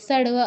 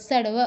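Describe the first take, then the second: Both takes have the same delivery.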